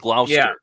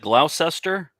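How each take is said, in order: First: It is said in a shortened form. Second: Every written letter is sounded out as spelled. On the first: This is how it is actually said. The speaker calls it right. "but it's" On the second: This is how the spelling suggests it is said. The speaker calls it wrong. "it looks like Gloucester"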